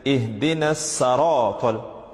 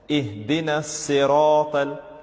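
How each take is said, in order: First: The first vowel of the second word is a. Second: The first vowel of the second word is i. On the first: The speaker calls it wrong. "people tend to make a mistake" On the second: The speaker calls it right. "with a kasra over the letter sad"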